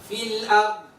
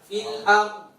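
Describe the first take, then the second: Both takes have the same delivery.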